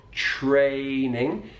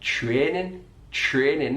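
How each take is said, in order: First: Training with the gliding ay diphthong, drawn out; standard training. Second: Training with a flat eh vowel; Mackem training. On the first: Teacher giving the standard ay in training for contrast. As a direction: say training with a full ay glide. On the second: Teacher showing the Sunderland flat vowel in training. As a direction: say training with one steady eh, Mackem style. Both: Shown as a demonstration. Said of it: "not training".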